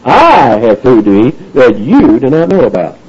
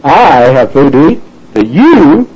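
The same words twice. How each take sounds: First: I stressed with a falling tune; I set against you; emphatic contrast. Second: Slow, YOU stressed with a rising tune; slow it down and land on you; you picked out against I; emphatic contrast. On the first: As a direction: put the weight on I. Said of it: "contrast here". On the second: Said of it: "emphatic, contrast here". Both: Shown as a demonstration.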